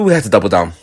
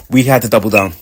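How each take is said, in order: First: "we" punched, then "had to double down" falls away; stress on WE. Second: "had" lifted and hit, "We" kept light; stress on HAD. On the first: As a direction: lean hard on "we" and keep "had to double down" light. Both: Shown as a demonstration.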